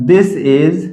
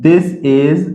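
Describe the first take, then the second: Both takes have the same delivery.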